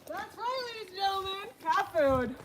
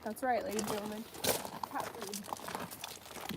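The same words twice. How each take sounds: First: It is said with drama and flair. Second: It is said plainly, without drama.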